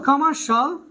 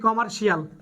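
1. শেষ অংশটি এক ভাগে বলা হয়, shul। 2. শেষ অংশটি দুই ভাগে বলা হয়, shee-al। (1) "আমরা বলবো এখন থেকে শল" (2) "যেটাকে আমরা বলি কমার্শিয়াল"

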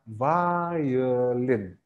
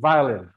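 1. Kata ini diucapkan lebih lambat. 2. Kata ini diucapkan lebih cepat.

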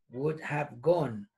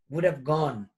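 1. 'Would' y 'have' se dicen como palabras completas separadas. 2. 'Would' y 'have' se unen en un solo sonido contraído.

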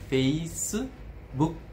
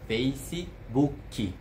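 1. Uma vogal u extra vem depois do k final. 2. Uma vogal i extra vem depois do k final. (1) "os japoneses têm a tendência de preencher com u. Então fica Facebook" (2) "os brasileiros falam Facebook"

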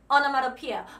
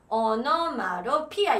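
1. 이 단어는 빨리, 한 번에 매끄럽게 이어서 말해요. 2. 이 단어는 천천히, 음절마다 끊어서 말해요. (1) "그냥 이렇게 외우세요" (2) "이걸 천천히 하려고 그러면 안 돼. onomatopoeia 이렇게 하면 안 돼"

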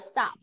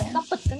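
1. Phần đuôi không thêm âm tiết nào. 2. Phần đuôi được đọc thành một âm tiết thêm. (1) "Mình sẽ đọc là stop" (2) "mình không đọc là stop it nhá"

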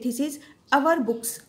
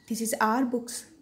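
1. शब्द 'our' के दो अक्षर हैं, जैसे 'ow-er'। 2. शब्द 'our' का एक अक्षर है, जैसे 'are'। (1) "this is आवर books common है" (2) "ये अच्छा है, सुनने में भी अच्छा लगता"

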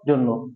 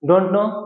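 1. শব্দ দুটো সংক্ষেপ হয়ে একটা দ্রুত "dunno" হয়ে যায়। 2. দুটো শব্দই পূর্ণভাবে বলা হয়। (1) "বিদেশিরা এটাকে সংক্ষেপে বলে ডুন নো" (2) "আমার দেশে সাধারণত আমরা বলি ডোন্ট নো"

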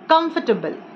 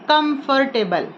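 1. बीच का 'for' syllable छोड़ दिया जाता है। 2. बीच का 'for' सिलेबल पूरा बोला जाता है। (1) "F O R जो है वो pronounce नहीं होगा" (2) "No, it's not correct way to pronounce this word"

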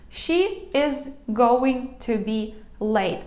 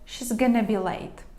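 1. Кожне слово вимовляється окремо, з багатьма паузами. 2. Скорочено повністю, а "going to" редуковано до "gonna". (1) "я прям по складах, Багато дуже пауз, нібито воно таке грубувате" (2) "Ще м'якше, ще коротше"

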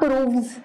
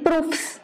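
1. बहुवचन प्रत्यय से पहले का व्यंजन V ध्वनि है। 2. बहुवचन प्रत्यय से पहले का व्यंजन F ध्वनि है। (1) "नॉट प्रूव्स" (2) "वी नहीं आता एफ ही आता है"

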